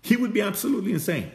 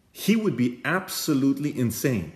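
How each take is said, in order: First: Pitched way up, laughing through it; high incredulous echo of the line; high amused repeat. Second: Said in the usual way. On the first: Shown as a demonstration. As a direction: squeal it with disbelief. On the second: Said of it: "He would be absolutely insane if he showed off".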